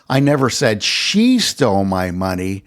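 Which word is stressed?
she. The word "she" is stressed. Someone else might have taken it. "I never said that she stole my money, though someone else might have"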